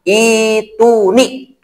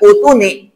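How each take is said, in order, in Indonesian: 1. Kata ini dimulai dengan vokal i. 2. Kata ini dimulai dengan vokal u. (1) "di sini harus dibaca kalimat, dibaca bacanya kalimat ituni" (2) "yang belum bisa mungkin akan membaca utuni"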